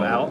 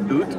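First: The vowel sounds like ow. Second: The vowel sounds like a long oo. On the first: It is the ordinary pronunciation. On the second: It mimics a stereotyped Canadian accent.

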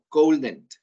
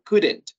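First: The first vowel is long, like in 'gold'. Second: The first vowel is short, like in 'good'. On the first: The speaker calls it wrong. "no cold o coldent" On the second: The speaker calls it right. "es could or couldn't"

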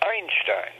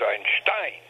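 First: The stress is on the first syllable. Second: The stress is on the last syllable.

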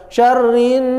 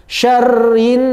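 No difference in how they are said.

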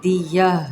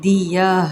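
No difference in how they are said.

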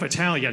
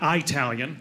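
First: The word begins with a short 'ih' sound. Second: The word begins with an 'eye' sound. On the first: The speaker calls it right. "I'm half Italian" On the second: The speaker calls it wrong. "You don't say the letter I, then the rest of the word Italian"

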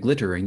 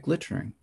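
First: The word is said with three full syllables. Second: The word is squeezed into two syllables. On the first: The speaker calls it wrong. "You wouldn't say glittering" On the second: The speaker calls it right. "you'd say glittering"

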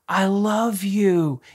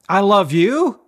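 First: It sounds warm, gentle and sincere. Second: It sounds flat and insincere. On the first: The words are meant with real feeling. The speaker calls it right. "mix in the right tone, the right tonality" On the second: The words are said without real feeling. The speaker calls it wrong. "It's not"

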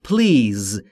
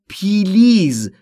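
First: The p runs straight into the l. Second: A long ee vowel splits the p and l. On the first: The speaker calls it right. "تلفظ درست به این صورته please بین P و L صدایی وجود نداره" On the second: The speaker calls it wrong. "خیلی از زبان آموزا به اشتباه تلفظ میکنن پیلیز"

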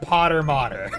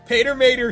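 First: The first word has an 'o' vowel. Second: The first word has an 'ay' vowel. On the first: The speaker calls it wrong. "They wanted to be pronounced Potter Mater. They should have put two T's. And an O" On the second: The speaker calls it right. "Pater Mater sounds better"

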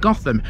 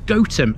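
First: The name is said in the American way. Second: The name is said in the local way. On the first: This is how the fictional city is said. The speaker calls it wrong. "The Gotham pronunciation is a total Americanism" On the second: This is how the village's locals say it. The speaker calls it right. "this is Go-thum, and that pronunciation makes sense, because it comes from Goat Farmstead"

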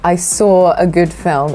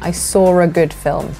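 First: There is no R sound between 'saw' and 'a'. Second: There is an R sound between 'saw' and 'a'. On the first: "So I would say" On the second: "we kind of insert an R where there isn't meant to be one"

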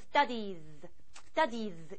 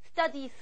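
First: The word ends in a buzzing z sound. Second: The word ends in a hissing s sound. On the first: The speaker calls it right. "그래서 studies 이렇게 되고요" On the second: The speaker calls it wrong. "아니고"

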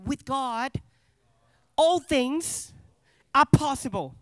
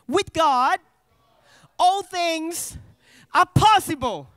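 First: It is said in a plain, even way. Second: It is said forcefully, with strong conviction. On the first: "You don't just say it" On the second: "you say it with conviction"

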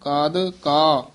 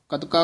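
First: The syllables are said apart, first one softly. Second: The syllables run together as one word. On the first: The speaker calls it right. "ਕਾਦ ਪੋਲਾ ਬੋਲਣਾ ਹੈ" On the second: The speaker calls it wrong. "ਕਦਕਾ ਇਕੱਠਾ ਨਹੀਂ ਕਹਿ ਦੇਣਾ"

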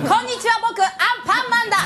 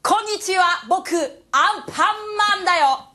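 First: The Anpanman voice is pitched higher. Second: The Anpanman voice is pitched lower.

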